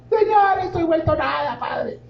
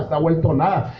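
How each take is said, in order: First: High, pleading mock prayer that fades out; whiny mock prayer. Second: Said in the usual way. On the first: Preacher mocking a complaining believer's prayer, high and whiny. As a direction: ham up a self-pitying plea to God.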